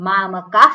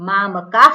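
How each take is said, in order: No difference in how they are said.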